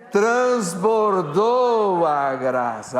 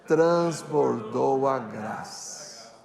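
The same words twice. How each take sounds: First: It is said loudly and forcefully. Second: It is said at normal loudness.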